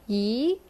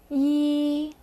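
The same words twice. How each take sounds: First: The pitch rises like in a question. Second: The pitch stays long, high and level. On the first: It means aunt. "you say it like you're going to ask a question" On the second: It means one. "you pronounce it with a kind of long, even tone"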